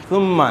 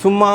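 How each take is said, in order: First: سما said carefully, drawn out; correct Quranic pronunciation. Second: Said in the usual way. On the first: Shown as a demonstration. Teacher shows how the word should be read, careful pronunciation. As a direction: give سما a careful, precise Arabic articulation. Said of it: "ہم اس کو سما پڑھتے ہیں". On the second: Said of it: "ہم عام طور پر پڑھتے ہیں".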